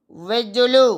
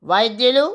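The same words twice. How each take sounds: First: వైద్యులు said as vejjulu, e vowel and a double j; వైద్యులు spoken as vejjulu, the everyday variant; colloquial form vejjulu. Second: వైద్యులు said with the full ai and dy sounds, ʋaidyulu; careful textbook form వైద్యులు, ai and dy spelt out in sound; the formal word వైద్యులు said clearly as vaidyulu; standard form vaidyulu. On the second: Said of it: "వైద్యులు దైవంతో సమానం". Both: Shown as a demonstration.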